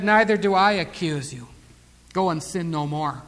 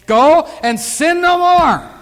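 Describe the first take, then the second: First: Soft, low, unhurried; gentle pardon. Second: Loud, high, drawn-out proclamation; forceful command. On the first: Retold or imitated. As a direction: release her quietly and tenderly. Jesus gently releases the accused woman. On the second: Acted. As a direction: preach it slowly at full force. Preacher drives the command home.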